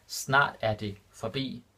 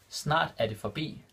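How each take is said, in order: First: Snart er det forbi spelled out slowly, every word distinct; slow it right down so students catch each word; slow and clear. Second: Said in the usual way. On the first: Shown as a demonstration. Teacher repeating the Danish example for learners, slow and clear. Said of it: "repeated slower for learners". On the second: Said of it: "Snart er det forbi. (repeated slower)".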